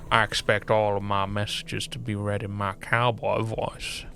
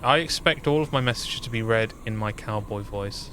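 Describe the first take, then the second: First: It is read in a put-on cowboy voice. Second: It is read in a plain normal voice. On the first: The speaker calls it right. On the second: The speaker calls it wrong.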